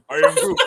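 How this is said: It is said with lively, varied intonation. "this time with inflection"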